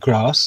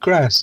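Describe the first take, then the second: First: It is said in a posh accent. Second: It is said in a plain accent. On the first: The speaker belongs to upper-class company. "in posh circles, one would use the word grass" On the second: The speaker belongs to ordinary company. "in not posh circles, one would use the word grass"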